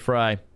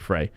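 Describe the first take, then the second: First: The name sounds like the food word 'fry'. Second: The name does not sound like 'fry'. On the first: The speaker calls it right. "You can say Fry. ... Fry makes me hungry" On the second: The speaker calls it wrong. "I'm gonna say Frey"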